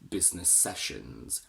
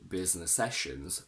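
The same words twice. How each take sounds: First: The s sound between the words is held long. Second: The s sound between the words is short. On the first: The speaker calls it right. "when we have a double s between business and sessions" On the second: The speaker calls it wrong. "if you don't double up the sound"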